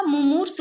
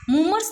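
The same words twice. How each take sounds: First: मुमूर्ष with short mu, then long moo; मुमूर्ष as mu-moors, second vowel held. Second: मुमूर्ष with both u vowels short, pitched higher; मुमूर्ष with a quick second vowel; wrong short vowels. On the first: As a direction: stretch the second syllable of मुमूर्ष. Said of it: "मुंह पे छोटी और फिर मुंह बड़ी". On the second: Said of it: "मुमूर्ष नहीं होता". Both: Shown as a demonstration.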